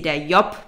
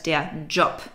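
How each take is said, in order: First: The J is said like a y sound. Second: The J is said like English dj. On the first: The speaker calls it wrong. "we don't say der Job" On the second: The speaker calls it right. "but der Job"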